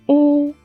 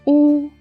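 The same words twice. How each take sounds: Both takes have the same delivery.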